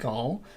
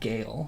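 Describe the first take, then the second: First: The vowel sounds like the vowel in 'all'. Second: The vowel sounds like the vowel in 'ale'. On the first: The speaker calls it wrong. "I thought it was like like Gaul" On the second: The speaker calls it right. "it was pronounced like Gale, so that makes more sense"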